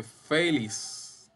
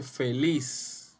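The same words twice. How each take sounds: First: Feliz said as the name FÉ-lix, "fe" stressed and drawn out; slow feliz with the weight on "fe"; stress on first syllable. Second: Feliz with "liz" stressed, "fe" light; stress on last syllable. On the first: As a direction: stretch the "fe" of feliz, let "liz" drop. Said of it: "sombreando como sílaba tónica la fe". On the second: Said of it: "Lis es la sílaba tónica". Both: Shown as a demonstration.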